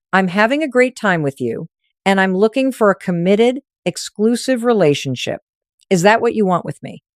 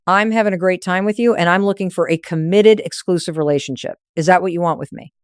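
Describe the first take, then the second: First: Each word set down slowly and evenly; slow and deliberate. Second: Said in the usual way. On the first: Shown as a demonstration. Coach demonstrating the commitment line slowly. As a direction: let every word land. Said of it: "slow enough that each word lands". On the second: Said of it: "One more time".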